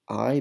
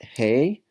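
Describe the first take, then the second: First: The word sounds like English eye. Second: The word sounds like English hey. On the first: The speaker calls it right. "You have the word I" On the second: The speaker calls it wrong. "This is not hey"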